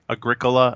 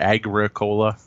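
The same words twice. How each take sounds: First: It is said as one word, not agri-cola. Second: It sounds like 'agri' followed by 'cola'. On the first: The speaker calls it right. "I think it's supposed to be Agricola. Agricola, I think, is the proper term" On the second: The speaker calls it wrong. "Not Agricola, because we're not growing coke"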